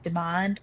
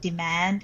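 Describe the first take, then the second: First: It has a British vowel, a long 'ah'. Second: It has an American vowel, like 'and'. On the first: "instead of demand" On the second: "Deidre has also started saying demand"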